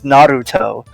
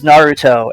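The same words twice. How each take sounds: First: The R is a rolled trill. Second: The R is a plain English R. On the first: Only one character says it this way. "pronounces Naruto with an alveolar trill" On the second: Most characters say it this way. "everyone says Naruto"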